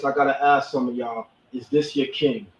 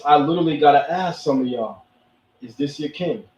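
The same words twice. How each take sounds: First: Lightly voiced Killmonger challenging the crowd. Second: Barely voiced Killmonger asking his question. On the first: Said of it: "in my Killmonger voice". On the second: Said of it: "In my Killmonger voice".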